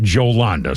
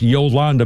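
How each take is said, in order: First: The name begins with a 'j' sound. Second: The name begins with a 'y' sound. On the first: This is how the name's owner says it. "apparently she pronounces it Jolanda" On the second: This is the usual way the name is said. "normally, that's pronounced Yolanda"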